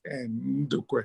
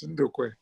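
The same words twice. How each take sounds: First: The initial N is clearly and fully pronounced. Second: The initial N is swallowed and barely heard. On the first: The speaker calls it wrong. "you don't pronounce it like Ndukwe" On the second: The speaker calls it right. "The N is taken in"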